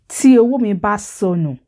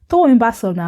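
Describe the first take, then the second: First: The opening words are said as separate full syllables. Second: The opening words are merged into one contracted word.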